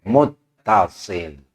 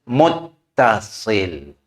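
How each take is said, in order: No difference in how they are said.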